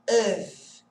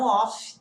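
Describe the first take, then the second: First: The word ends with a v sound. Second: The word ends with an f sound. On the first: The speaker calls it right. "Esse F tem som de V" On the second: The speaker calls it wrong. "e não off"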